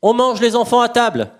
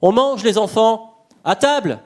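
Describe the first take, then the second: First: It is said in one run without pauses. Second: Short pauses set off 'les enfants'.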